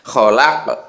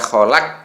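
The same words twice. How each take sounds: First: The final q ends with a bouncing echo. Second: The final q stops flat without a bounce. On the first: The speaker calls it right. "Harus ada ke-nya itu" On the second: The speaker calls it wrong. "jadi tidak boleh dibaca kholaq. Nah, gitu tidak boleh"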